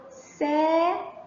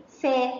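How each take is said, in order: First: سا with the aa held long; long vowel. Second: سا said as a short sa; short vowel. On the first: Teacher shows seen joined to alif, سا drawn out long. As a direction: stretch the alif in سا evenly. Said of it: "مسكت المد بالألف". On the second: Teacher asks for seen with fatha, سا said short. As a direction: keep the fatha in سا brief. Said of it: "الصوت القصير". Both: Shown as a demonstration.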